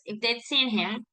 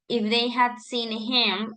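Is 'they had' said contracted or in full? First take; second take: contracted; full. First: The words are contracted and run together. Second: The words are said separately and in full. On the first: The speaker calls it right. "we try to say it all at once" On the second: The speaker calls it wrong. "We don't say, for example"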